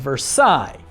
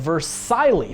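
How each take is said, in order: First: The word ends without an L sound. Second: The word ends with a clear L sound.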